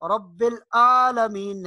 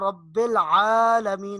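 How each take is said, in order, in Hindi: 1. 'alamin' एक सादे हमज़ा (ग्लॉटल कैच) से शुरू होता है। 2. 'alamin' एक कसी हुई गले की आवाज़ से शुरू होता है। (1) "इसको हम हमजा नहीं पढ़ना" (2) "आइन आइन की आवाज निकालनी है"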